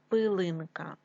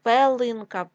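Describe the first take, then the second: First: Said in the usual way. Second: Пелинка with е instead of и; wrong variant Пелинка, first vowel е; е in first syllable. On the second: Shown as a demonstration. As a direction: say Пелинка with open e after П. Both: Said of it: "пилинка від слова".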